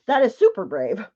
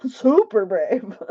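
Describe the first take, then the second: First: Said in the usual way. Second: Drawn-out SUPER, slow; emphatic repeat. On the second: Real, not acted. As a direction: stretch the word "super" with a laugh.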